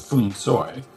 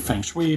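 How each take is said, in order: First: It is said with a Cantonese-style pronunciation. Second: It is said literally, every letter sounded out. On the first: This is how it sounds in Cantonese films. "they say something closer to Fung Soi" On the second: This is an older personal habit. "I used to just do it phonetically"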